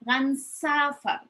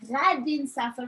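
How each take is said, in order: First: The future marker is shortened to one sound. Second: The future marker is said as a full word.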